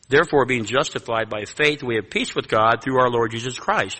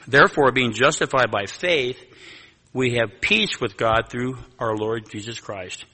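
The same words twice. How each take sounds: First: It is read at a normal pace. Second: It is read a little more slowly.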